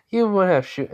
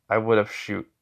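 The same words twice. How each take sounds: First: High, lightly mocking reply; amused disbelief. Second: Level, unimpressed answer; blank deadpan. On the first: Girl scoffing at his threat to shoot, amused disbelief. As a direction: laugh off the threat, pitched up. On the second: Acted. He answers her laughing doubt, blank deadpan. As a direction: state it blankly, no lift. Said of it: "just looks at her blankly".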